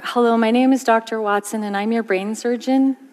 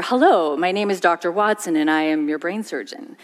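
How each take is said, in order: First: Each phrase lifting up at the end like a question; rising tone. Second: Steady, each phrase settling down to a firm close; falling tone. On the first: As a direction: sound unsure by letting the pitch climb. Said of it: "when his tone of voice goes up". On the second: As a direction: sound sure by letting the pitch drop. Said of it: "when his tone of voice goes down". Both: Shown as a demonstration.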